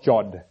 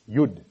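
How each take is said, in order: First: The word begins with a J sound. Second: The word begins with a Y sound. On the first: The speaker calls it wrong. "it's not Jod" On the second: The speaker calls it right. "it's Yud"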